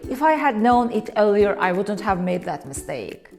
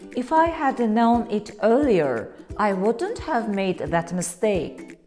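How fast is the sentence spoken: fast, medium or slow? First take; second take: fast; medium. First: The sentence is spoken quickly and casually. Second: The sentence is spoken at a moderate pace. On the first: It is a casual everyday remark. "This is how native speakers often say it in real conversations" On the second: The speaker is just explaining. "Now it sounds more natural. Like I am not regretting, I'm just explaining"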